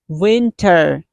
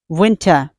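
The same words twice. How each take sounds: First: The final R is clearly pronounced. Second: The final R is dropped, ending in ah. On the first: "American people say R. They pronounce R" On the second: "British people don't sound R. They sound ah"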